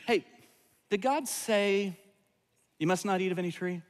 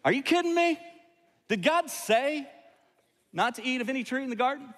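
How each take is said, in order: First: Innocent serpent question. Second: A high, disbelieving serpent sneering at the rule; snake with an attitude. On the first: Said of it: "Or, or did he say it with an attitude?". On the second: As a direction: play the sassy talking snake, mocking God's command. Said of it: "did he say it with an attitude?". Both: Retold or imitated.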